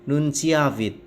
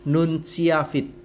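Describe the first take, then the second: Both takes have the same delivery.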